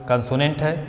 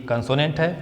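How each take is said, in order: The two takes are said the same way.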